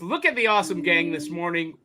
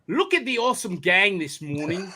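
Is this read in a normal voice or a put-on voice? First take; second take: normal; put-on. First: It is read in the reader's ordinary voice. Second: It is read in a put-on imitating voice.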